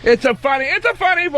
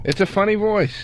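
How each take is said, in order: First: Very high squeaky put-on voice; high funny voice. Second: Slightly raised mock voice; lightly pitched-up funny voice. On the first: Comic mocking the high-pitched impression, exaggerated funny voice. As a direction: push it way up into a silly falsetto. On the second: Comic teasing co-host about the impression, mild funny voice. Echoing the high-pitched voice just discussed. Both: Shown as a demonstration.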